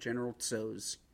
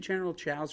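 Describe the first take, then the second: First: The name starts with a 'ts' sound. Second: The name starts with a 'ch' sound. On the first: "isn't it General Tso's?" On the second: "How do you go to Cho's when it's spelled T-S-O?"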